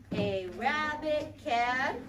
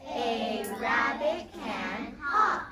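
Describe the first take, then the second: First: Stretched slowly word by word; slow sentence read. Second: "A rabbit can hop" slowly, each word apart; slow modelled sentence. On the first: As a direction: spell out "A rabbit can" slowly for the class. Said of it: "we can say it in a sentence". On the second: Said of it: "Let's say it again". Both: Shown as a demonstration.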